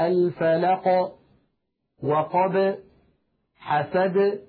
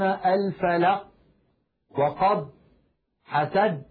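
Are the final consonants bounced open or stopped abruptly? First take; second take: bounced; stopped. First: The final consonants are released with a slight bounce. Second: The final consonants are closed off abruptly, without release. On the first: The speaker calls it right. "تخرج بالتباعد كما قلنا ... هكذا" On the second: The speaker calls it wrong. "لا يقولون"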